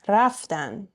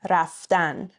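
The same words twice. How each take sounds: First: The stress is on the second-to-last syllable. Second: The stress is on the last syllable. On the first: It means they went. "But for they, it would be ... Next to last syllable" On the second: It is the infinitive, to go. "Infinitives always stressed on the last syllable"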